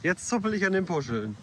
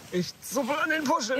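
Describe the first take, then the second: First: Said in the usual way. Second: Much higher, sing-song tone; high playful voice. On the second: Pretend. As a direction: pitch it up playfully. Playfully repeating while tugging tassels.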